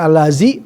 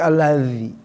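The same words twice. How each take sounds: First: The middle consonant is a buzzing z sound. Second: The middle consonant is a voiced th sound. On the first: The speaker calls it wrong. "bukan allazi" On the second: The speaker calls it right. "tapi allazi. Lidah harus keluar"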